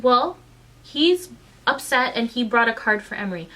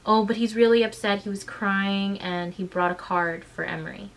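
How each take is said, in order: First: Louder, throw her words back at her; indignant mocking echo. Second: Said in the usual way. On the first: Mother mocking the teacher's excuse, indignant and loud. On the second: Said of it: "She goes".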